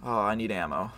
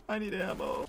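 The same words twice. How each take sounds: First: Said in the usual way. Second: Unvoiced, breathy whisper with a laugh; a much softer, hushed repeat. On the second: Real, not acted. Same line repeated whispered.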